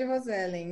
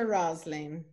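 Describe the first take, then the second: First: The name is said with Brazilian Portuguese pronunciation. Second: The name is said with English pronunciation. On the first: This is how people in Brazil say the name. "no Brasil todo mundo me chama de" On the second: This is the name's form in English. "O nome em inglês é"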